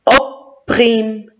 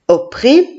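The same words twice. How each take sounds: First: "opprime" split as "op", pause, "prime"; sounding out syllables. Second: Said in the usual way. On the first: Shown as a demonstration. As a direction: read "opprime" in two separate beats. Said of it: "Et je vois le mot". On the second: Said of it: "je vois le mot".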